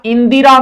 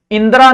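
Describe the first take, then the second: First: इंदिरा with a clear di in the middle; correct form इंदिरा. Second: इंदिरा said as in-dra, short middle vowel; wrong form इंदिरा. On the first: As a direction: say इंदिरा as in-di-raa. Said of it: "इंदिरा नहीं होता". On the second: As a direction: swallow the i after द in इंदिरा. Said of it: "नहीं होता". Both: Shown as a demonstration.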